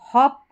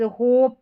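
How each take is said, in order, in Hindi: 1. स्वर छोटा है, जैसे 'hop'। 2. स्वर लंबा है, जैसे 'hope'। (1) "अब इसको हॉप पढ़ेंगे" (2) "अगर यहाँ पर हम इसको लॉन्ग पढ़ देते, होप पढ़ते हम"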